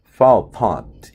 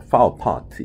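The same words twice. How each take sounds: First: "far apart" R 없이 천천히 파: 어파트; R 빼고 "far apart" 느리게 시범; British far apart. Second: "Far apart" R을 굴리며 크고 높게, 느리게; 미국식으로 R 살려 "Far apart"; American far apart. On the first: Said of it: "far apart 이렇게 들릴 겁니다". (영국식 "far apart" 천천히) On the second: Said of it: "Far apart가 아니고요". (미국식 R 발음 "Far apart") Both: Shown as a demonstration.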